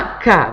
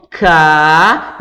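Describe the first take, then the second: First: Said in the usual way. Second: K held long and loud, tone climbing; teacher's drawn-out K; prolonged, rising syllable. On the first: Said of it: "a criança vai lá e fala". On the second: Shown as a demonstration. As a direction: stretch out K emphatically, raising the tone. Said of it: "prolongando e aumentando o tom".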